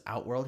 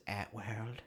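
First: Said in the usual way. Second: "Atworld" with the first vowel flattened to "at"; weird pronunciation. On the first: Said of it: "with the way he, like, says". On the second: Retold or imitated. Friend mimicking the actor's odd Outworld, weird accented "Atworld". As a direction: say "Atworld" low and soft, opening on "at" instead of "out". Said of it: "some kind of weird accent he's come up with".

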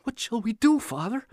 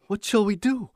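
First: Desperate plea. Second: High, urgent, pleading question; desperate plea. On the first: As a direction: press him again, desperate. Repeated plea to silent father. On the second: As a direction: beg for an answer. Frantic boy asks father. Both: A narrator's reading.

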